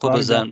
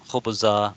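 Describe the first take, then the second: First: The word ends with an n sound. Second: The word ends with a long vowel. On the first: The speaker calls it wrong. "அ அத நம்ம தவிர்க்கணும்" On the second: The speaker calls it right. "நிறுத்தும் பொழுது பைதா, குப்ஸா"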